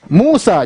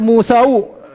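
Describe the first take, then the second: First: The name ends in a plain 'a' sound. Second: The name ends with an added 'u' sound. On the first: The speaker calls it right. "Musa jangan dibaca Musau" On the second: The speaker calls it wrong. "jangan dibaca Musau"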